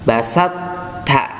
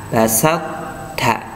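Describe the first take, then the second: Both takes have the same delivery.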